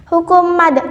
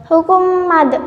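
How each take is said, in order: Both takes have the same delivery.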